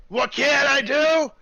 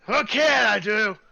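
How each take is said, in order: First: Even higher and louder, slow; boastful dwarf topping his own question; dwarf, building louder. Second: High, loud, slow dwarf echoing the question; offended dwarf repeating the question; gruff dwarf voice. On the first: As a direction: repeat it bigger, winding up to boast. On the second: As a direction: scoff at the question like a proud smith. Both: Acted. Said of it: "is a dwarf".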